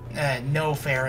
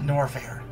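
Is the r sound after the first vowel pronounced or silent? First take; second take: silent; pronounced. First: The r after the first vowel is silent. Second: The r after the first vowel is pronounced. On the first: The speaker calls it wrong. "I keep wanting to say Nofair" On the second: The speaker calls it right. "and not Norfair"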